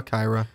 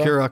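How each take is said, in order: First: "Kyra" said as KYE-ruh; long i as in eye in "Kyra"; pronunciation variant. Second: "Kira" said as KEE-ruh; long ee in "Kira"; pronunciation variant. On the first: Co-host weighing two readings of a name, "Kyra" as KYE-ruh. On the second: Co-host weighing two readings of a name, "Kira" as KEE-ruh. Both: Shown as a demonstration. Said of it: "it says here it's pronounced".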